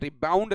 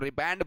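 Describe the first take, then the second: First: The second syllable has an 'ou' vowel. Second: The second syllable has an 'a' vowel. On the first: The speaker calls it wrong. "रिबाउंड नहीं बोलते इसको" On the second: The speaker calls it right. "रिबैंड बोला जाता है"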